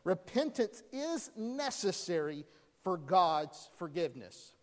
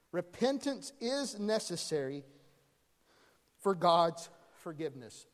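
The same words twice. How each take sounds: First: Said in the usual way. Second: "Repentance" stressed, with a pause before "for God's forgiveness"; stressed restatement. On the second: Shown as a demonstration. Preacher repeating the big idea for note-taking, stressed. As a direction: lean on "Repentance", then pause. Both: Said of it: "Write this down".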